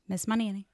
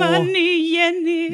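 First: It is said in a flat, subdued way. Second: It is said with lively, enthusiastic energy. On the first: The speaker calls it wrong. "You have to say it with more, like, fervor" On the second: The speaker calls it right. "I like the enthusiasm"

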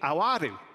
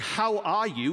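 First: The h at the start is dropped. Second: The h at the start is pronounced. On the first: "We drop our H's" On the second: "instead of saying"

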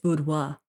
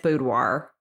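First: It is said in a non-American way. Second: It is said in an American way. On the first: "if you're being correct, it's boudoir" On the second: "if you're American, it's boudoir"

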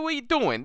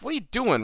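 First: It is said in a New York accent. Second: It is said in a plain accent.

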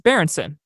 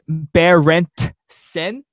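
First: The name is said in a natural, relaxed way. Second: The name is sounded out slowly and carefully. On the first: The speaker calls it right. "So it's Berenson" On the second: The speaker calls it wrong. "When you like sound it out"

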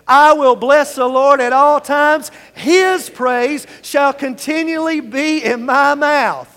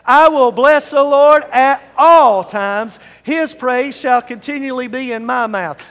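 First: The words his praise are stressed. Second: The words all times are stressed.

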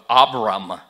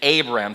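First: The name is said with a Hebrew-mixed pronunciation. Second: The name is said with a plain English pronunciation. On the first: The speaker calls it wrong. "start reading it with a mixture of Abram" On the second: The speaker calls it right. "but it's Abram"

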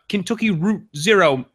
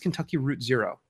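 First: It is said in a put-on Australian-style accent. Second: It is said in the speaker's ordinary accent.

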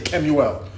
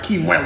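First: The name is pronounced the original Hebrew way. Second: The name is pronounced the local Crucian way. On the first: The speaker calls it right. "my name is Kemuel" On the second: The speaker calls it wrong. "My name is not Kemuel"

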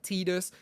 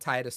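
First: The name is said not rhyming with Midas. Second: The name is said to rhyme with Midas. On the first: The speaker calls it wrong. "not Tidus" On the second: The speaker calls it right. "I call him Tidus, not Tidus, because my name is Midas"

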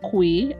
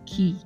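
First: The word begins with a 'kw' glide sound. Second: The word sounds exactly like the word key. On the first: The speaker calls it wrong. "it is actually not pronounced Kwe, as I've pronounced it all my life" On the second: The speaker calls it right. "But it's pronounced key, as in K-E-E"

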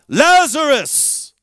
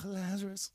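First: The name is called out with power. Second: The name is said weakly, without power.

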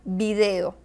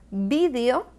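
First: It is said with a Latin American stress pattern. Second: It is said with a Spanish (Spain) stress pattern.

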